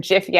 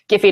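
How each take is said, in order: First: It begins with a soft j sound. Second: It begins with a hard g sound. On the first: The speaker calls it right. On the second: The speaker calls it wrong.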